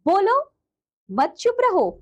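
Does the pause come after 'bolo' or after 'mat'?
after bolo. The pause comes right after the first word. The listener should speak. "मैं कह रही हूं कि आप बोलो"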